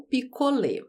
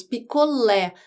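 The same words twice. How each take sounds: First: "picolé" mispronounced with a closed final ê; deliberately closed ê ending on "picolé"; wrong closed vowel. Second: "picolé" with an open final é; stressed open é at the end of "picolé"; open vowel. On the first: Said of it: "não picolé". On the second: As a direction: say "picolé" ending in a wide open e. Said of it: "o som da letra E é aberto". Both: Shown as a demonstration.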